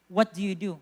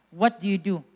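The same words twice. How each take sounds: The two takes are said the same way.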